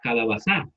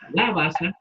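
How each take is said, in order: First: The stress is on the last syllable. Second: The stress is on the third-to-last syllable. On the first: "si no lo hiciéramos y lo pusiéramos al final, diríamos calabazá" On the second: "calabaza sería el antepenúltima sílaba"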